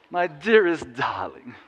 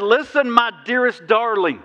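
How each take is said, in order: First: Slow, lightly voiced old-film crooning; mock smoky-screen romance, drawn out; a hint of a vintage film lover, rising at the end; old movie lover. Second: Slow, higher, tender scripture read; earnest loving words, unhurried; sincere reading. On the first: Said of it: "That's where my head went yesterday". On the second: Shown as a demonstration. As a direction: read it as Jesus speaking to his bride. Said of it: "Now, watch the next part".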